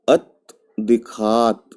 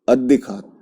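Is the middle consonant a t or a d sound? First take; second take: t; d. First: A voiceless t is heard before the d. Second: The t becomes voiced, giving a double d. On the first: "तो क्या ये?" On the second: "जब इसको पढ़ेंगे तो क्या हो जाएगा?"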